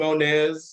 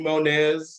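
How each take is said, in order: First: The name is said as 'Monez'. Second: The name is said as 'Monez'.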